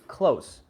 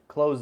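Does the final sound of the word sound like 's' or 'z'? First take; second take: s; z. First: The word ends with a hissing s sound. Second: The word ends with a buzzing z sound. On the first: Near in distance or relationship. "is an S sound. There's no Z" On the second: To shut something. "that is z"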